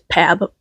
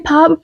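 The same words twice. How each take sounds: First: The vowel is read as the spelling suggests. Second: The vowel matches the start of Pablo. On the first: The speaker calls it wrong. "my brain wants to read it as Pab, which which probably isn't right" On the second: The speaker calls it right. "I should say Pab probably because Pablo"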